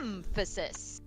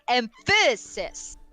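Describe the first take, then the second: First: The stress is on the first syllable. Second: The stress is on the middle syllable. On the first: "you were putting the stress on the first syllable, it would be" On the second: "If you wanted to put emphasis on the middle syllable, it would probably sound more like"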